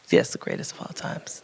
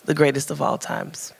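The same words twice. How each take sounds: First: Breathy whisper of the phrase. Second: Said in the usual way. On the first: Real, not acted. Author whispers the title to the audience. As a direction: whisper it like a secret aside.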